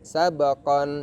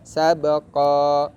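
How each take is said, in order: First: The word ends with an n sound. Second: The word ends with a long a vowel. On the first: The reading continues without stopping. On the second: The reader stops at this word.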